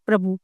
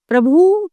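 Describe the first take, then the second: First: Said in the usual way. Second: प्रभु read out as the wrong spelling, higher; प्रभु said high as the incorrect version; wrong form first. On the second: Shown as a demonstration. Teacher reading out the wrong form for the class, higher. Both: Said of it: "अब आप देखिए यहाँ पे".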